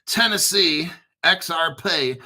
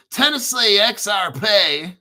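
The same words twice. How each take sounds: First: Said in the usual way. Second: Louder, higher mock Tennessee drawl; Tennessee accent. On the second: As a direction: draw it out in a hammed-up Tennessee accent. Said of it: "why do you talk like that".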